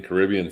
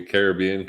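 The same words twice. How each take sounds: First: Caribbean as kuh-RIB-ee-un; Caribbean stressed on RIB. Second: Caribbean as care-uh-BEE-un; Caribbean stressed on BE. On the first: Cohost gives both versions of the name, Caribbean stressed on RIB. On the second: Cohost gives both versions of the name, Caribbean stressed on BEE. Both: Shown as a demonstration. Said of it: "you say Caribbean, Caribbean Splash".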